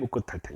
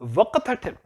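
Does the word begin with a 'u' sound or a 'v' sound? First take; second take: u sound; v sound. First: The word begins with an 'u' vowel sound. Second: The word begins with a 'v' consonant sound. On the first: The speaker calls it right. "우크 이렇게 바뀐다는 거예요" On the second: The speaker calls it wrong. "이렇게 발음 안 한다는 거예요"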